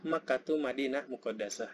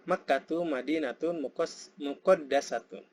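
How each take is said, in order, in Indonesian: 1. Akhiran i'rab di akhir kata dihilangkan. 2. Akhiran i'rab di akhir kata diucapkan penuh.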